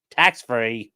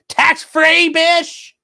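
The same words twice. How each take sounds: First: Said in the usual way. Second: High, slow, loud squeal of delight; squealed excitement. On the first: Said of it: "Yes, tax-free, bish!". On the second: Real, not acted. Streamer squealing at a chat tip, high and slow. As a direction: shriek it out like a happy fangirl.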